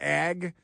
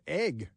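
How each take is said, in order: First: The vowel is open, like in 'bag'. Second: The vowel is closer, like in 'beg'. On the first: The speaker calls it right. "you might refer to the Department of Agriculture as Ag" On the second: The speaker calls it wrong. "she can't pronounce the words"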